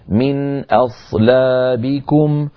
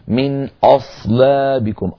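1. الهمزة مرققة قبل الصاد المفخمة. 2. الهمزة مفخمة، متأثرة بالصاد المفخمة. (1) "فننتقل من همزة مرققة إلى صاد مفخمة" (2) "فلا نقول مثلا من أصلابكم"

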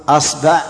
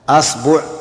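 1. الحركة الأولى هي 'a' مفتوحة. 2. الحركة الأولى هي 'a' مفتوحة.

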